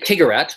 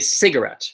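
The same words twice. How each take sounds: First: The word begins with a hard K sound. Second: The word begins with a soft S sound. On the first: The speaker calls it wrong. "we don't say cigarette" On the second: The speaker calls it right. "It's an S sound"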